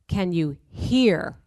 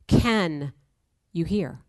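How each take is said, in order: First: The stress falls on the word hear. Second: The stress falls on the word can.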